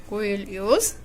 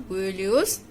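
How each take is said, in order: No difference in how they are said.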